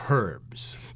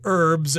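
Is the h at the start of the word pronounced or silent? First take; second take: pronounced; silent. First: The word begins with an h sound. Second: The word begins without an h sound. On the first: This is the British way of saying it. "in the U K, they tend to pronounce that H" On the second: This is the American way of saying it. "in America, we don't pronounce the H"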